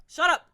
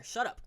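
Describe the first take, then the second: First: "Shut up." shouted high and loud; angry shout. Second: Said in the usual way. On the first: Real, not acted. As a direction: bark "Shut up." at them. Telling teens to shut up.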